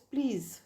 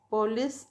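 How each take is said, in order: First: The first vowel is dropped entirely. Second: The first vowel is pronounced fully.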